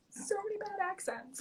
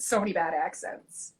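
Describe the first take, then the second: First: Tiny, very high, soft voice; high-pitched lament. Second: Said in the usual way. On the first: Real, not acted. Actor lamenting bad accents to a colleague, high and soft. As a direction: repeat it as a small high squeak.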